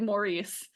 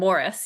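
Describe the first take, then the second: First: The name is said like 'Maurice'. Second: The name is said like 'Morris'. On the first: The speaker calls it wrong. "my inclination is to say Maurice" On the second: The speaker calls it right. "you pronounced it correctly"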